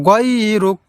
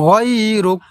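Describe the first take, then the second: No difference in how they are said.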